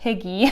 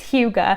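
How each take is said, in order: First: The word is pronounced like 'higgy'. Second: The word is not pronounced like 'higgy'. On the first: The speaker calls it wrong. "I know it's not like Higgy" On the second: The speaker calls it right. "I think it's Hygge"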